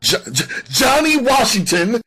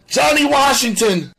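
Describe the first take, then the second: First: High, loud stutter on the name; fearful stammer. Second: Loud, high-pitched terrified shout; fearful cry. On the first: Suspect barely able to say the name, fearful stammer. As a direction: stumble on the first sound, frightened and rising. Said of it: "He could barely pronounce the name". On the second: Suspect naming the man to police, fearful cry. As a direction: cry out the full name in fright. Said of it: "Sam's voice was etched with fear". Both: A narrator's reading.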